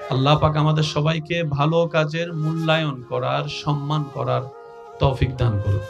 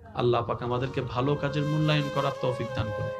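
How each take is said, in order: First: It is said louder, with more force. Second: It is said at normal, softer volume.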